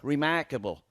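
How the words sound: A Cardiff accent, with the R sounds dragged out. "in Cardiff, they drag their R's on"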